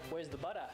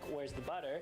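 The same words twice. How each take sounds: First: Butter ends with an open 'uh' sound. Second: Butter ends with an r-coloured 'er' sound. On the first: The speaker calls it right. "we'd go like" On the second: The speaker calls it wrong. "instead of going um, like"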